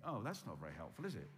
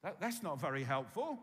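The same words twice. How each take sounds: First: Lower, dismissive mock reply, is it?; deflated skeptic scoffing lightly; unimpressed listener. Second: Louder, pushing the complaint harder; insistent mock protest; unimpressed listener. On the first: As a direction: voice the doubting listener shrugging it off. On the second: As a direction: press the skeptic's objection. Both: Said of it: "You think".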